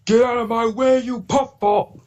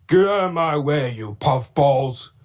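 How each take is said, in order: First: Much higher, snarling villain shout, drawn out slowly; high, slow, hammed-up villain yell; Diesel 10 Neil Chrome voice. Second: Somewhat higher villain line with a touch of James, stretched slowly; his own take on the villain, less shrill; slow, milder villain yell with a hint of James; own Diesel 10 voice. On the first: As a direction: bark it like the cartoon villain engine. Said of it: "that's Neil Chrome". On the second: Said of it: "a little bit of a James tone into it". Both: Shown as a demonstration.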